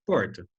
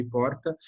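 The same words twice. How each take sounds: First: "porta" with a light tapped Paraná R; "porta" in a light Paraná accent. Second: "porta" with the different São Paulo city R; "porta" in a light São Paulo accent. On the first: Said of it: "um paranaense fala porta". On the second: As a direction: say "porta" like a paulistano, R changed. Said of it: "a gente tem um R diferente ali". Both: Shown as a demonstration.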